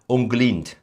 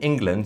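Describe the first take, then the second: First: The word begins with an 'ung' sound. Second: The word begins with an 'ing' sound. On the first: The speaker calls it wrong. "you say Unglind. That's not really England anymore" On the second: The speaker calls it right. "instead of saying England"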